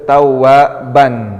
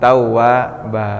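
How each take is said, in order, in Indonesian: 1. Kata ini diakhiri dengan bunyi n. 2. Kata ini diakhiri dengan vokal, tanpa n. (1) "Dalam ayat itu tawwaban" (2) "jadi tawwaba"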